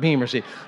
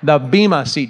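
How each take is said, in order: First: The first word ends with an r sound. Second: The first word ends in a plain vowel. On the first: The speaker calls it wrong. "It's not beamer seat" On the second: The speaker calls it right. "the bema seat judgment"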